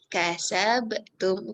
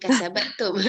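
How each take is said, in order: First: The b runs straight into the t. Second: An extra a vowel separates b and t. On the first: The speaker calls it right. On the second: The speaker calls it wrong. "Bukan kasabatum"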